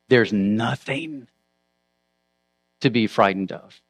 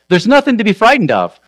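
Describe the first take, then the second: First: It is said slowly with heavy emphasis. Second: It is said quickly and casually. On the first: Nothingness itself is what should be feared. "now let's say it again, slowly, with reemphasis" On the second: Death is nothing to fear. "they say it quickly, casually"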